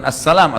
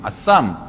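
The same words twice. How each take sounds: First: "assalam" said in full, ending on a clear "-lam"; pengucapan benar. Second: Assam said short and clipped, stopping at "sam" with no "-lam"; "Assam" as a mocking twist of the greeting; pengucapan salah. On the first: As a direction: stress the full "assalam" firmly. (ucapkan "assalam" lengkap dengan "lam") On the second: (ucapkan "Assam" pendek tanpa "lam") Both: Shown as a demonstration. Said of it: "bukan assalam".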